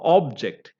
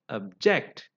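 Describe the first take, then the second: First: The stress is on the first syllable. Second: The stress is on the second syllable. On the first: It means a thing. "that is noun ... the stress is on the first syllable" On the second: It means to protest. "as a verb ... stress is on the second syllable"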